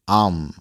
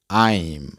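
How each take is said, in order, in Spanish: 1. La palabra se reduce a un sonido corto 'um'. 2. La palabra se dice completa, con un diptongo claro. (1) "de manera informal se pronuncia um" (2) "De manera formal se pronuncia I'm"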